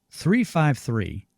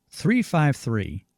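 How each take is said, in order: No difference in how they are said.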